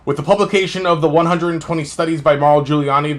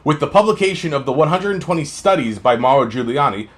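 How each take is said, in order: First: It is read flat and run together, without pauses. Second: It is read with varied pitch and clear pauses. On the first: The reader is not following what the text means. The speaker calls it wrong. "smeared and slurred and just going, going, going, going, no stop, no inflection" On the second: The reader conveys the meaning to listeners. The speaker calls it right. "That has the ability to be understood"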